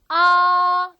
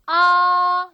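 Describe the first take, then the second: First: The pitch stays high, level and long. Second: The same.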